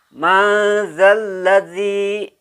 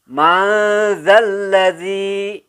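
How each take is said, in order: No difference in how they are said.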